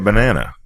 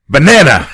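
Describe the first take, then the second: First: The word is said in a plain, ordinary way. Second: The word is said in an exaggerated, mocking way. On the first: This is how the speaker's group really says it. The speaker calls it right. "we say a banana" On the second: This is how someone else mockingly repeats it. The speaker calls it wrong. "And then you say, banana!"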